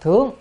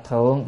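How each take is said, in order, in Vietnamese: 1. Âm tiết này có thanh cao, đi lên. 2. Âm tiết này có thanh thấp, nặng, có thắt họng. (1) "mà đọc là thướng" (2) "không phải đọc là thượng"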